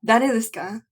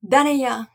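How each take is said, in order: First: Plain standard "Dare desu ka?", neutral Tokyo-style phrasing; standard Japanese. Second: Kansai dialect. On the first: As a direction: say "Dare desu ka?" as the textbook form. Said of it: "instead of saying". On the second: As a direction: toss off "Dare ya?" the Kansai way. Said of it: "then you would say". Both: Shown as a demonstration.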